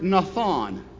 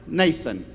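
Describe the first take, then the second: First: It is pronounced as a Hebrew word. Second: It is pronounced like the English name. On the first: "The Hebrew word for requite is a word" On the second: "way we would say it? One of our best friends"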